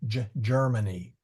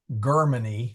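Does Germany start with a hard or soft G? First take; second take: soft; hard. First: Germany begins with a soft J-like G sound. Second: Germany begins with a hard G sound. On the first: The speaker calls it right. "we say" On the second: The speaker calls it wrong. "We don't say"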